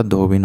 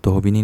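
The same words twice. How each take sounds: First: धोबिन ending on a bare n; proper धोबिन in two syllables; correct form. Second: धोबिनी with final 'nee'; धोबिनी in three syllables, 'dho-bi-ni'; wrong form. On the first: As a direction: say धोबिन as 'dho-bin', no final vowel. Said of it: "धोबिन होता है". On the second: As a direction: say the mistaken धोबिनी, adding 'ee' at the end. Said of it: "धोबिनी नहीं होता". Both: Shown as a demonstration.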